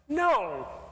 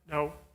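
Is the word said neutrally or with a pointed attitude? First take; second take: pointed attitude; neutrally. First: It is a no with a pointed attitude. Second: It is a plain, neutral no.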